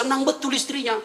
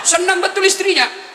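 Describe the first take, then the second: First: Said in the usual way. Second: Emphatic, laughing. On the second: Shown as a demonstration. Preacher repeats the wife's joy with laughing emphasis. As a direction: play up how thrilled the wife is.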